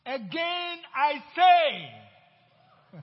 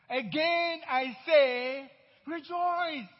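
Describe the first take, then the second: First: "Again I say" very slow and loud, each word leaned on; emphatic quote. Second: "Again I say" slow and loud, "rejoice" lifted high; emphatic repeat. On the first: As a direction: hammer every word of "Again I say". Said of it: "Real good emphasis here". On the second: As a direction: drive home "Again I say, rejoice". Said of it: "in case you didn't understand it before". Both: Retold or imitated.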